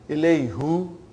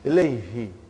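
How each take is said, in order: First: The final syllable has an 'u' vowel. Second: The final syllable has an 'i' vowel. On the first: The speaker calls it wrong. "It takes extra effort. And even also, it doesn't sound nice to the ear" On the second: The speaker calls it right. "now pronounced ilayhi. It, you can pronounce with ease"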